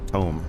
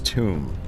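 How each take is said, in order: First: The vowel is a long oh sound. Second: The vowel is a long oo sound. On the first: The speaker calls it right. "Tome. Not tomb. Tome" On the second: The speaker calls it wrong. "Not tomb"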